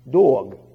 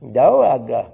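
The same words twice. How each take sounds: First: It is said with a plain standard accent. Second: It is said with a southern US accent. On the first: "That's right. Dog, D-O-G" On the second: "In the south, they say dog"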